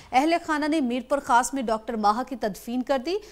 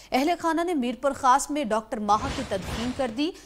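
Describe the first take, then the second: No difference in how they are said.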